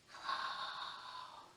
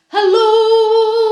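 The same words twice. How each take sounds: First: It is said very quietly. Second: It is said very loudly.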